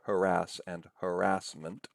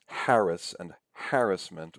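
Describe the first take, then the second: First: Harass and harassment as huh-RASS, huh-RASS-ment; stress on second syllable. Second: Harass and harassment as HARR-us, HARR-us-ment; stress on first syllable. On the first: Lecturer gives the other way, harass said huh-RASS. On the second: Lecturer recalls a public debate, harass said HARR-us. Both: Shown as a demonstration. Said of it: "you can say either way".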